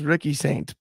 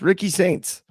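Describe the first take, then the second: First: The name ends without a final s sound. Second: The name ends with a final s sound. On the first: The speaker calls it wrong. "it says Ricky Saint" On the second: The speaker calls it right. "but it's Ricky Saints"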